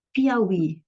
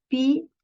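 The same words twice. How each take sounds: First: Said in the usual way. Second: "Piauí" split into pi, au, í with pauses; slow, spaced-out demo of "Piauí"; syllable by syllable. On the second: Shown as a demonstration. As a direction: separate each syllable of "Piauí", lifting the final "í". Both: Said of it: "Veja, Piauí".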